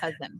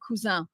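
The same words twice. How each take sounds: First: The name is said with English pronunciation. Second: The name is said with French pronunciation. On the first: The speaker calls it right. "but it's really cousin" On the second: The speaker calls it wrong. "I grew up in France. I want to say cousin"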